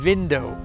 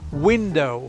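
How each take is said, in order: First: It is said with a German accent. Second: It is said with a plain English accent. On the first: The speaker calls it wrong. "I end up saying window still to this day" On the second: The speaker calls it right. "Instead of saying window"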